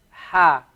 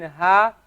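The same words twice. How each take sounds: First: "ha" with a stronger throat h; a throatier "ha"; heavier ha. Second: "ha" with a light breathy h; a gentle airy "ha"; soft ha. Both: Shown as a demonstration. Teacher contrasting two h letters for students. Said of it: "Notice the difference between".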